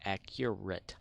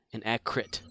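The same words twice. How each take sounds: First: "Accurate" in three syllables, AK-yer-et; full pronunciation. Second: "accurate" squashed to two syllables, AK-rit; imitated mispronunciation. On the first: Shown as a demonstration. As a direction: sound the U in "Accurate", slowly and distinctly. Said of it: "There's a U in there". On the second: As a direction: say "accurate" without the U sound, "ak-rit". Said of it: "as Norm would say on Tested".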